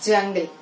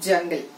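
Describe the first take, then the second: No difference in how they are said.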